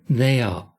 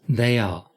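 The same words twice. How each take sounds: Both takes have the same delivery.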